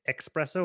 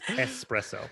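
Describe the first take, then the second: First: The word begins with an ex sound. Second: The word begins with an es sound. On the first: The speaker calls it wrong. "it's not a fucking X" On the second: The speaker calls it right. "it's an S"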